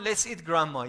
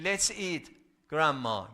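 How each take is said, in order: First: It runs on with no pause after eat. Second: There is a pause after the word eat. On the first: "But if there is no comma" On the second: "If you put the comma after eat"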